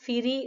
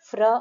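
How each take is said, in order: First: A short vowel separates the f and r. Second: The f and r are joined with no vowel. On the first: The speaker calls it wrong. "అంతేగాని ఫిరి అనలేం మనం" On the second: The speaker calls it right. "ఎఫ్ ఆర్ కలిపితే ఫ్ర అవుతుంది"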